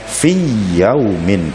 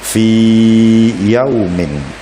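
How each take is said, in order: First: The y sound is doubled without lengthening. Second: The vowel before yaumin is held long. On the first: The speaker calls it wrong. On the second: The speaker calls it right. "tetapi dibaca panjang"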